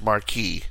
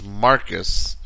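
First: The word ends with an 'ee' sound. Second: The word ends with an 'us' sound. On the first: The speaker calls it right. "I believe this is pronounced Marquee" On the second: The speaker calls it wrong. "I don't want to pronounce this Marcus"

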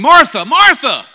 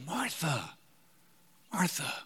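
First: The name is said with strong, passionate intensity. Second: The name is said calmly and gently. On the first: "he might have said that passionately" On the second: "what if he even said it this way?"

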